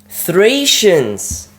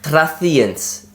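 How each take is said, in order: First: The middle consonant is an s sound. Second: The middle consonant is a th sound. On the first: The speaker calls it right. "That makes so much more sense" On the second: The speaker calls it wrong. "the way I've been pronouncing it"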